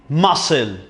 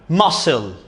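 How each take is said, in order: No difference in how they are said.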